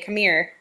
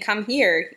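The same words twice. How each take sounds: First: The words run together, sounding like 'mere'. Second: Both words are said fully and distinctly. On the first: "we say come here" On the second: "instead of saying"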